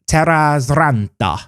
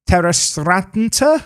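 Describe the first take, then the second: First: The surname is said with Finnish-style pronunciation. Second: The surname is said with English-style pronunciation. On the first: The speaker calls it right. "is probably how you'd say that name if you were wanting to say it properly" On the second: The speaker calls it wrong. "I hope I've done that name justice"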